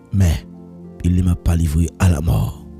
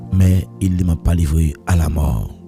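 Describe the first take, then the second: No difference in how they are said.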